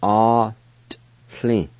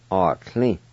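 First: "Ought. Tli." in two separated pieces, T sounded; sounded T, silent I. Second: Said in the usual way. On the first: Shown as a demonstration. Teacher showing the T sound, word broken in two. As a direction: break "Ought. Tli." apart, pronouncing the T. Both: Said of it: "pronounce the T sound like this".

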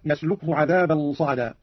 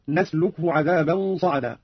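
First: Said in the usual way. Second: نسلكه opening on a clear n, "nasluk-hu"; nun of majesty. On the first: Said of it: "قوله تعالى". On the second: Shown as a demonstration. Teacher demonstrating Qalun's reading, نسلكه said "nasluk-hu". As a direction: slowly recite نسلكه starting with n, not y. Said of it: "قرأ قالون بنون العظمة هكذا".

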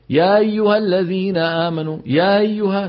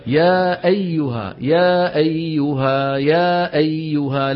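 First: يا أيها with the أ swallowed and eased, higher; rushed hamza. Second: يا أيها slow with a crisp glottal stop on أ; clear hamza. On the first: Teacher mimicking a hasty reciter who drops the hamza. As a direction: slur يا أيها fast, losing the hamza. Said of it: "شايف؟". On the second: Teacher modelling the correct clear hamza. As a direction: say يا أيها slowly, hit the hamza. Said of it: "شو لازم يقول؟". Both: Shown as a demonstration.

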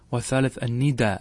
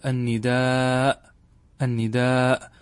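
First: الندى said with a short final a, no hamza; short nida. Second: النداء with the long drawn final aa and hamza, slowly; long nidaa. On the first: Teacher reading the verse word short, as the poet wrote it. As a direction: say الندى clipped short, nada-style. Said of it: "الندى هذا بالقصر". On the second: Teacher showing students the original long form, drawn out slowly. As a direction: stretch النداء out to its full madd. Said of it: "على الأصل وهو المد سيقول". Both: Shown as a demonstration.

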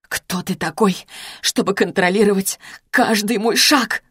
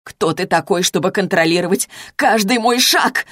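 First: Hushed, quavering challenge; trembling voice. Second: Contained narrated shout; mildly raised, indignant outburst; losing restraint, shouting. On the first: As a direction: voice trembling as you demand an answer. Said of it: "повторила я дрожащим голосом". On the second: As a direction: demand it openly, no longer holding back. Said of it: "крикнула я, более не в силах сдерживаться". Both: A narrator's reading.

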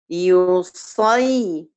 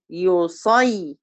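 First: يصي drawn out very slowly, the صاد held; held sakin. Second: يصي again very slow and drawn out; held sakin. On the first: Teacher demonstrating a long, slow يصي. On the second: Teacher repeating a slow, drawn-out يصي. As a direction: lean on the صاد in يصي. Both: Shown as a demonstration. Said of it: "أما أقول مثلًا".

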